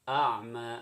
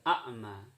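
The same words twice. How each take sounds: First: It starts with a deep throaty sound. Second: It starts with a plain glottal stop. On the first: The speaker calls it right. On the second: The speaker calls it wrong.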